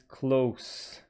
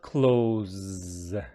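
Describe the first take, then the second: First: It is pronounced like the adjective meaning near. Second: It is pronounced like the verb meaning shut. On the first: The speaker calls it right. "if it is an adjective, opposite of far" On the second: The speaker calls it wrong. "it is not close"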